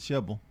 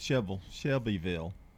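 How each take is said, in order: First: The name is squeezed into a short, clipped form. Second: The name is said in full, with all syllables. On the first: This is how locals say it. The speaker calls it right. "Just one syllable" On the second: This is how newcomers say it. The speaker calls it wrong. "people knew they call Shelbyville"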